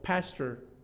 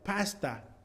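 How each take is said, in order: First: It ends with a weak schwa and an r. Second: It ends with an open a and no r. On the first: "en los Estados Unidos pronunciaríamos más o menos como pastor" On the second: "en Ghana ... se pronuncia pasta"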